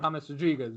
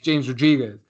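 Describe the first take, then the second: First: The first name has a Spanish H-like sound. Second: The first name has an English J sound. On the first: The speaker calls it right. "now it's normal" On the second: The speaker calls it wrong. "I was just just saying James Rodriguez"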